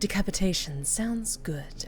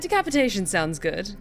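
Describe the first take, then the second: First: It is said in a put-on character voice. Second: It is said in a natural everyday voice.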